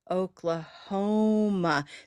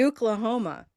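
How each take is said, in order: First: The stress is on a later syllable. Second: The stress is on the first syllable. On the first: The speaker calls it right. "it happens to be stressed on Oklahoma" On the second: The speaker calls it wrong. "If it were stressed on the first syllable"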